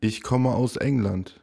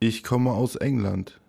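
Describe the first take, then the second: No difference in how they are said.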